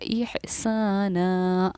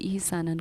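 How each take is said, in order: First: The word ends with a long a vowel. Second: The word ends with an n sound. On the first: The reader stops on this word. "वक्फ किया तो इसको पढ़ा इहसाना" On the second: The reader does not stop on this word. "दो ज़बर पर"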